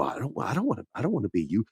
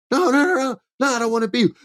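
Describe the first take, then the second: First: Barely voiced, much softer, just lips moving; a silent lip-read protest; mouthed silently. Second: Much higher, panicky denial; Sami's high-pitched frantic no; squeaky protest. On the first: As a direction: mouth the words with almost no sound. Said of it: "you see the lips go". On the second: Retold or imitated. Sami protesting to Roman.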